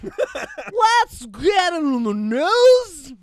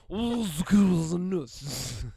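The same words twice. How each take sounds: First: It is said in a weird put-on voice. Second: The words are slurred together.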